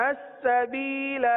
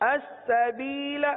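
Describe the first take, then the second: The two takes are said the same way.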